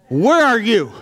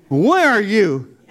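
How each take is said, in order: First: Loud, high desperate cry; yelling at God. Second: Slow, loud, strained repeat; anguished plea to God. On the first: Crying out to God alone at night, loud and desperate. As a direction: call out, demanding an answer. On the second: Begging God for an answer in the dark, slow loud anguish. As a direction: drag it out, pleading and broken. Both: Retold or imitated. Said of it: "I'm yelling at God".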